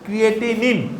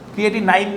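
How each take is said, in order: First: The last syllable sounds like 'neen'. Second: The last syllable sounds like 'nine'. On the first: The speaker calls it right. "হ্যাঁ ক্রিয়েটিনিন" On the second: The speaker calls it wrong. "ক্রিয়েটিনাইন না কিন্তু"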